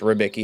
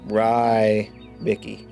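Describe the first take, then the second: First: The first syllable sounds like 'rib'. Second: The first syllable does not sound like 'rib'. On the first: The speaker calls it right. "is how you say it, like rib" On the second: The speaker calls it wrong. "It's not"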